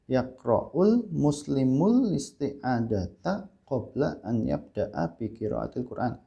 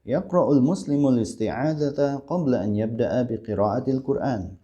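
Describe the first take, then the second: First: Slow, syllable-by-syllable Arabic in an Indonesian accent; plodding Indonesian accent on Arabic. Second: Connected, flowing Arabic model reading; Arabic accent with long vowels, words joined; proper Arabic accent. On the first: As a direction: show the wrong way: Arabic with Indonesian intonation. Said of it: "logatnya logat Indonesia". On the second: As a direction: read it as Arabs speak, linked in one run. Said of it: "Begitu ya bacanya". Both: Shown as a demonstration.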